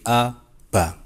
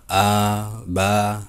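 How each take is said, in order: First: The vowels are kept short. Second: The vowels are drawn out long. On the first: The speaker calls it right. "baca pendek" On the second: The speaker calls it wrong. "jangan dibaca"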